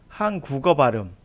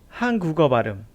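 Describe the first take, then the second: The two takes are said the same way.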